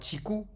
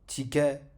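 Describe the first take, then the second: First: The word ends with a u vowel after k. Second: The word ends with an a vowel after k.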